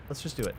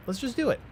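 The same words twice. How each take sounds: First: Said in the usual way. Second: Excited. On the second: Real, not acted. Decides on the road upgrade.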